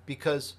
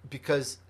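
Both takes have the same delivery.

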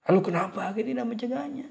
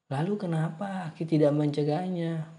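First: High, fast, cross question; overdone angry tone. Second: Mildly cross question, pitched up; a touch of annoyance; slightly angry. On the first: Shown as a demonstration. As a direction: demand it in an exaggerated angry tone. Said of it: "terlalu nada marah tuh". (nada terlalu marah) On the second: A narrator's reading. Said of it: "Maiso sedikit marah". (sedikit marah)

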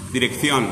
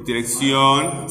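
First: DIRECCIÓN with a th sound for the second C; Castilian "th" in Dirección; Castilian pronunciation. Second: Dirección with an S sound for the second C, drawn out; slow seseo in dirección; Latin American pronunciation. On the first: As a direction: say Dirección as in Spain, "direk-thyon". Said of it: "para los españoles suena S". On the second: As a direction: say dirección slowly as "di-rek-syon". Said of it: "Para nosotros". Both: Shown as a demonstration.

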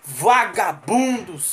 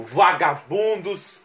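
First: Mais lento ainda. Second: Lento e arrastado. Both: Acted.

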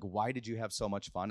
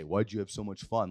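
First: Soft, low curious question; genuinely wondering. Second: Low, mildly accusing question; mock disapproving. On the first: Retold or imitated. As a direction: ask it softly, gently prying. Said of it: "I genuinely was wondering". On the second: Shown as a demonstration. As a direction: ask it as if fun were wrong. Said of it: "Like, you shouldn't have fun".

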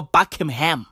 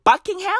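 First: Buckingham said as BUCK-im-ham; slurred middle syllable. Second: Buckingham with a clear - king- in the middle; full middle syllable. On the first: Host trying the other name, Buckingham as Buckim-ham. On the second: Host checking the palace's name, Buckingham with clear -ing-. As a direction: say Buckingham as BUCK-ing-ham, rising as a question. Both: Shown as a demonstration. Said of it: "is it Buckingham or Buckingham".

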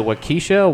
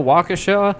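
First: WAUKESHA said "wuh-KEE-shuh"; two guessed pronunciations. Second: WAUKESHA said "WAH-kuh-shah"; second guessed pronunciation. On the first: Unsure speaker guesses at a town name, Waukesha as "wuh-KEE-shuh". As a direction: stress Waukesha on KEE, with a long ee. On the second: Unsure speaker offers another guess, Waukesha as "WAH-kuh-shah". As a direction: stress Waukesha on a high first WAH. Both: Shown as a demonstration. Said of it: "some people are going to mispronounce it".

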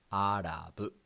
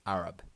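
First: Arab as "arabu", final vowel added; katakana pronunciation. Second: Arab as English "AIR-ub"; plain English Arab; English pronunciation. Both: Shown as a demonstration. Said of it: "In English".

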